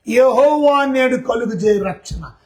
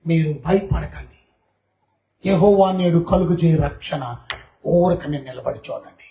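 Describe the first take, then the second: First: Slow, weighty scripture recital; solemn recitation. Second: Lower, slow, steady reassurance; calm reassurance. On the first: Preacher reciting the verse to the church, slow and solemn. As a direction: intone the verse slowly. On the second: Moses calming the frightened people, low and slow. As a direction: settle a frightened crowd. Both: Acted.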